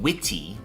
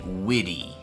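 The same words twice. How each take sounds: First: The middle consonant is a crisp, strong T. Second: The middle consonant is a soft, D-like sound. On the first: "Instead of witty" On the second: "we would say witty, like as if it had a D"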